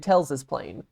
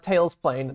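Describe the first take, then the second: First: Tails is followed by an extra s syllable. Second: Tails is said with no extra s syllable. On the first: The speaker calls it right. "most people add an extra S sound" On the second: The speaker calls it wrong. "no one says uh, Tails plain"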